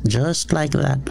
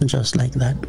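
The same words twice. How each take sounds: First: "like" lifted and stressed. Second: "that" stressed, falling. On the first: Pastor stressing "like" to the congregation, emphatic. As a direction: lean on "like". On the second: Pastor repeating the phrase, stressing "that". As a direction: land on "that". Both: Shown as a demonstration. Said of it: "most of the prayers here are like that".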